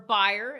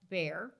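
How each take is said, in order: First: The name is said the German way. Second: The name is said the usual English way.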